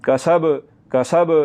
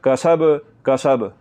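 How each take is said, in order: No difference in how they are said.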